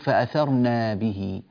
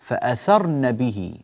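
First: A long vowel follows the n sound. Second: A short vowel follows the n sound. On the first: The speaker calls it wrong. "لا تقول فأثرنا به" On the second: The speaker calls it right. "فأثرن نون مفتوحة وليس بعدها ألف"

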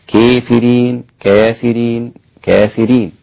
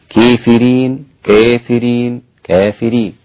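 No difference in how they are said.

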